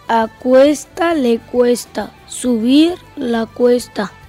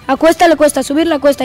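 First: It is spoken at a slow speed. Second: It is spoken at a fast speed. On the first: "Por la velocidad lenta" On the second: "La velocidad rápida"

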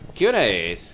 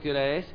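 First: It is asked in an impatient, pressing tone. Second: It is asked in a plain, neutral tone. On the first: It also tells the listener to hurry up. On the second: It is simply a request for the time.

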